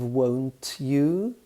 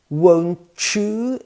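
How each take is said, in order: First: The t and y sounds stay separate. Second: The t and y blend into a ch sound. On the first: "instead of" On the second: "two sounds blend together"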